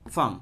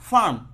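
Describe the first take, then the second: First: It is said without an r sound. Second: It is said with an r sound. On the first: "ফয়েকারে ফা মো" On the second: "এখন যদি আমি একটা রেফ দেই তাহলে উচ্চারণ আসে"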